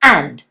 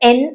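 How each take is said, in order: First: The word has a full vowel and final d. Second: The word is cut to a short 'en'. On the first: "ഇതിന്റെ strong form ആൻഡ് ആണ്" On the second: "എൻ എന്ന് മാത്രം"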